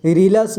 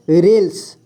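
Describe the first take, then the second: First: रीलस drawn out as री-ल-स with a full vowel on ल; teacher shows the mistake रीलस, a long री and a full ल; wrong reading. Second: रेल्स said as one syllable, half ल joined to स; teacher models रेल्स with the half ल and no vowel after it; correct reading. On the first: Teacher warns students against the wrong reading रीलस, said with the vowel put back. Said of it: "रीलस नहीं पढ़ना है". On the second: Teacher shows students the right reading, रेल्स said with a tight half ल. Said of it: "इसे पढ़ना है रेल्स". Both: Shown as a demonstration.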